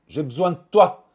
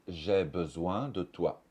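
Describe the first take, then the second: First: The vowel drops and a lengthened T remains. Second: The vowel in 'de' is pronounced fully. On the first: "le son D est absorbé par le son T ... ce T va être rallongé" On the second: "Au lieu de dire"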